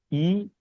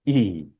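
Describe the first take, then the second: First: ई said short, one beat; a quick short ee on ई; short vowel. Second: ई held long; sustained, drawn-out ई; long vowel. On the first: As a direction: keep ई brief. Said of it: "एक मात्रा में बोला जाएगा". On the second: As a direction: stretch ई into a long ee. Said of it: "ज्यादा समय के लिए बोला जाएगा". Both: Shown as a demonstration.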